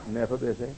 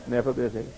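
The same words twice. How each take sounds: The two takes are said the same way.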